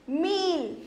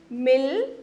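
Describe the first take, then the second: First: मील with a long ee; मील, vowel held long. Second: मिल with a short i; brief i in मिल; short vowel. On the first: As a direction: draw out the ee in मील. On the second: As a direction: say मिल without stretching the vowel. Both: Shown as a demonstration. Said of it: "उस सुर को लंबा खींचेंगे".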